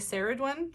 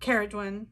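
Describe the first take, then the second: First: The name begins with an S sound. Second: The name begins with a K sound. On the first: The speaker calls it wrong. "I always wanted to say Saradwen" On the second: The speaker calls it right. "so to know it's Ke is really helpful"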